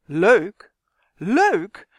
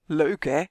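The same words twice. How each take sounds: First: Loud, incredulous outburst; exploding indignantly. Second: Understated, self-satisfied little tag question; smugly pleased. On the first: Justin blows up at Kwark's remark, loudly indignant. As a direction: throw the word back, outraged. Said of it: "Justin ontplofte zowat". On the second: Kwark teases Justin about the rules, smugly pleased. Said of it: "Kwark keek heel tevreden". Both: A narrator's reading.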